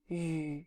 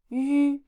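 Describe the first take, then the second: First: The pitch dips low, then rises. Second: The pitch stays high and level. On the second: "these are the first tones"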